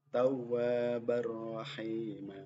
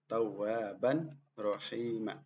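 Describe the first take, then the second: First: The n merges straight into the r. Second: The n sound is kept before the r. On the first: "Dibaca yang benar adalah seperti ini"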